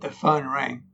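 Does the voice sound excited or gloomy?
gloomy. It is said in a gloomy, ominous tone. Bad news is coming. "you know what's coming"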